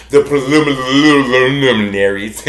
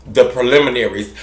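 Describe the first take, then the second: First: "preliminaries" drawn out with babbled extra l syllables; tongue-tangled word. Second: Said in the usual way. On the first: Pretend. Host forgetting the preliminaries, comically garbling "preliminaries" slowly. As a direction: stumble playfully through the middle of "preliminaries", lul-lul-style. Plays at tripping over long word.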